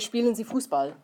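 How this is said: It is said as a command, falling.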